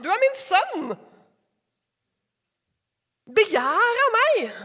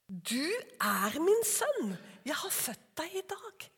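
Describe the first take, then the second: First: Higher, louder, very slow proclamation; proclaiming. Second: Slow, soft and tender, trailing off. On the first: Preacher voicing God proclaiming his son, loud and slow. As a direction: declare it with full authority. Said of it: "Han som er innsatt". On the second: Preacher voicing God to his son, soft and tender. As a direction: speak it like a father to his son. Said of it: "tusen år før Jesus". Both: Acted.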